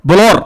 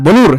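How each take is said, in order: First: ব্লর said short with an open o, like blor; correct pronunciation. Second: ব্লুর said with a full u vowel, blur as bloor; ব্লুর with an oo sound; wrong pronunciation. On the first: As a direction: clip ব্লর to one short syllable with open o. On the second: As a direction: stretch the vowel in ব্লুর to a clear oo. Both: Shown as a demonstration. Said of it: "উচ্চারণ হচ্ছে ব্লর".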